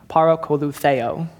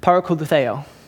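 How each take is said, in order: First: The word is said more slowly. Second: The word is said at a normal pace.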